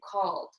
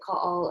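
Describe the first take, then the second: First: The ending is a plain D sound. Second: The ending is said as a separate syllable. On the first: The speaker calls it right. "the E D at the end makes a D sound" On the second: The speaker calls it wrong. "You don't say called"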